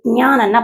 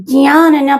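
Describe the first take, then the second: First: జ్ఞానన్నా starting with a g-ny sound; second accepted variant. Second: జ్ఞానన్నా starting with a j-ny sound; first accepted variant. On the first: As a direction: say జ్ఞానన్నా as gnyana. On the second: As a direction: say జ్ఞానన్నా as jnyana. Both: Shown as a demonstration. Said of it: "జ్ఞానన్నా పలకొచ్చు".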